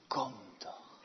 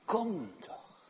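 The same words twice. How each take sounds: First: Soft whisper, falling on kom; whispered invitation. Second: Said in the usual way. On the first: Acted. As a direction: beckon gently under the breath. God's beckoning voice.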